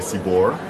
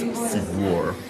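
First: The name is said plainly, without a glide. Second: The name is said with a small glide. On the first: The speaker calls it wrong. "the easiest way to pronounce it is just to say Sibur" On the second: The speaker calls it right. "if you want to say it properly, it's Sibur. There's like a little glide over that"

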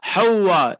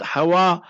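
First: The w sound in the middle is long. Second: The w sound in the middle is short. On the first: The speaker calls it right. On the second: The speaker calls it wrong. "not Hawa"

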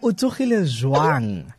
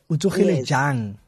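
First: The last word has a w sound after j. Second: The last word has no w sound after j. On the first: This is the Sesotho form. The speaker calls it wrong. "Drunk is Lesotho" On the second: This is the Setswana form. The speaker calls it right. "now we say jang"

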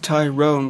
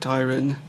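First: The second syllable has a long 'o' vowel. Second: The second syllable has a short vowel. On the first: This is the name's actual pronunciation. "it's actually pronounced Tyrone" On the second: This is how people usually call the speaker. "I'm just used to being called Tyron"

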